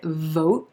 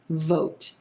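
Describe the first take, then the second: First: The final T is held, not released. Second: The final T is softly released. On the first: "I'm holding the T at the end of that word" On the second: "a soft released T"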